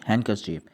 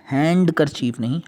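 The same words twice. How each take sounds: First: हैंडकरचीफ said hankerchif, d silent, low and soft; right pronunciation. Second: हैंडकरचीफ with the d sounded, hand-ker-cheef; wrong pronunciation. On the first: Teacher giving the class the correct version, d silent. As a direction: say हैंडकरचीफ as hang-ker-chif, no d. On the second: Teacher showing the class the wrong version, d sounded. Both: Shown as a demonstration.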